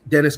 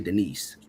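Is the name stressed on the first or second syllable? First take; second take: first; second. First: The stress is on the first syllable. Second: The stress is on the second syllable. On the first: The speaker calls it right. "but please, it's [name]" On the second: The speaker calls it wrong. "I want to say Denise"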